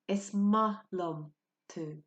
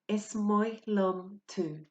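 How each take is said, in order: First: The second word is said like 'ma'. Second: The second word is said like 'moy'.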